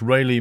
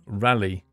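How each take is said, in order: First: The first vowel sounds like the one in 'ray'. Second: The first vowel sounds like the one in 'rally'. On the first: This is how the speaker says the name. The speaker calls it right. "It's Rayleigh, mate" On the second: This is how others say the name. The speaker calls it wrong. "Pronunciation Rally"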